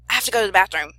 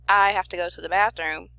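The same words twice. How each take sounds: First: The sentence is said at a faster pace. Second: The sentence is said at a slower pace. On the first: The need is urgent. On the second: There is no particular urgency.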